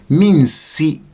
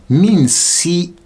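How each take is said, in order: The two takes are said the same way.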